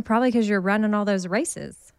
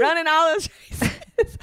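First: A slip of Southern twang on races; country accent. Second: High teasing copy of a Southern twang; imitating Amy's Texas accent, laughing; mock country accent. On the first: Real, not acted. The speaker chatting with Kat, a Texas accent slipping out. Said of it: "You just sounded so country". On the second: The speaker teasing Amy, mimicking her Southern twang. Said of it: "I've never heard you have an accent like that".

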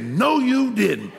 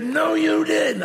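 First: High slow no you didn't; mama in disbelief. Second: Shouted disbelief. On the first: Mama catching son with new car, disbelieving. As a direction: drag out the disbelief. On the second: Mama shouting at son over new car, disbelieving. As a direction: shout it in mock outrage. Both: Retold or imitated.

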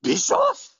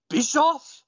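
First: Bischoff echoed much higher, rising sharply; mock echo. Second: Bischoff with a high rising question; questioning call. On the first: Translator echoing Tajiri's call, much higher. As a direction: parrot the name back, far higher. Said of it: "the translator goes". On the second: Retold or imitated. Tajiri on the stand calls out, rising. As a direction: call the name as a puzzled question. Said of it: "he says".

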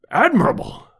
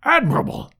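First: "Admirable!" as a first hearty exclamation; "Admirable!" praised aloud, at normal pitch; cried out. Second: "Admirable!" again, higher and more excited; "Admirable!" rising into enthusiastic praise; higher excited repeat. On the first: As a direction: call out "Admirable!" with warm approval. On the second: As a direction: lift "Admirable!" up high with delight. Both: A narrator's reading. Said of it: "cried Challenger".

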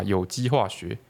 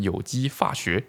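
First: Said in the usual way. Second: Put-on 有机化学 with 化 said as fa, Hakka accent, slow. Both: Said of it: "会自动把喝念成fơ".

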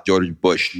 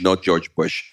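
First: George Bush said with a slipped-in Russian accent; a hint of Russian accent on George Bush. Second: Said in the usual way. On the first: Shown as a demonstration. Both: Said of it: "I don't know why I made it Russian".

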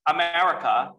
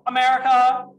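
First: Said in the usual way. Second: Called out high and loud; hyped-up shout. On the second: Shown as a demonstration. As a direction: belt it like a rally cry.

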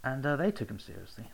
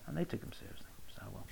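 First: Said in the usual way. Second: Whispered aside; whispering. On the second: Real, not acted. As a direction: whisper it for emphasis. Repeated as a whisper.

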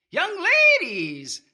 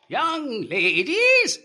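First: Put-on shrill cracked old man. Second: Put-on high, slow, drawn-out old man's call; shrill cracked old man. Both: A narrator's reading. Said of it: "in a shrill, cracked voice".

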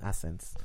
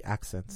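First: "accents" slurred without its k sound; slipped pronunciation. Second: Said in the usual way. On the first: Real, not acted. Host catching own slip on the word accents, slipped pronunciation. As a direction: say "accents" as "assents", dropping the k. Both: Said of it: "Why do I keep saying accents".

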